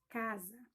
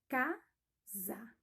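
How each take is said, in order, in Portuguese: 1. A palavra é dita de forma contínua, sem pausa. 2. A palavra é dita devagar, sílaba por sílaba. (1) "Eu tô falando fonema" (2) "aí eu falo pausadamente"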